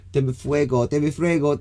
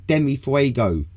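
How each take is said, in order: First: Hammed-up Spanish accent, pitched high; cliched Spanish accent. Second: Said in the usual way. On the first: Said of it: "when we do it, they go". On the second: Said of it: "Just say".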